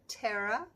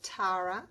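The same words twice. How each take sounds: First: The name is said the American way. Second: The name is said the Australian way. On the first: "In the States, I think you say" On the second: "in Australia, we pronounce it"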